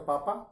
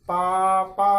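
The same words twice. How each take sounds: First: The last syllable is kept short, not drawn out. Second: The last syllable is drawn out in a call.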